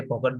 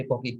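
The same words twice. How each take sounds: First: "pocket" with a clear short o; Sri Lankan pronunciation. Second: "pocket" ending lightly, final t barely heard; foreign pronunciation. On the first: Teacher showing class the local way, Sri Lankan pronunciation. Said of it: "we say pocket, but they say". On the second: Teacher showing how foreigners say it, foreign pronunciation. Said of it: "but they say pocket". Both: Shown as a demonstration.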